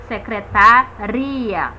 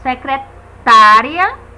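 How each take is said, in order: First: Secretaria lento, com RI marcado e alongado; tônica em secretaRIa. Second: Secretária lento, com TÁ forte e alongado; tônica em secreTÁria. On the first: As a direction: separe e reforce o RI de secretaria. (secretaRIa, sílaba RI bem destacada) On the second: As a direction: estique e reforce o TÁ de secretária. (secreTÁria, sílaba TÁ bem destacada) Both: Shown as a demonstration. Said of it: "a localização da sílaba tônica".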